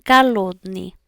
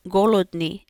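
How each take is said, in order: First: "голодный" said as kalodni, with the O becoming an A; reduced to a. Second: "голодный" said with a full O, as written; wrong o sound. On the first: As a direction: say "голодный" with the O turned into an A. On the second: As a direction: say "голодный" with a clear O in the first syllable. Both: Shown as a demonstration. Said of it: "when that O sound becomes an A sound".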